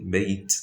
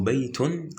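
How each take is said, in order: First: "bait" cut to a final t, no -un; stopped form. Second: "baytun" said slowly with -un sounded; full ending. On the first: Teacher showing how we stop on it, stopped form. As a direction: end "bait" on the bare t. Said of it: "We say bait". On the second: Teacher showing the word before stopping, full ending. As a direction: draw out "baytun", keeping the final n. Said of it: "how do we stop on it?". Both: Shown as a demonstration.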